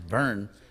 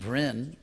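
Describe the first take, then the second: First: The vowel sounds like the 'ur' in 'burn'. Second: The vowel sounds like the 'i' in 'bin'. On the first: The speaker calls it right. "the real pronunciation is burn. It's like the English word burn" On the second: The speaker calls it wrong. "would be pronounced Brin"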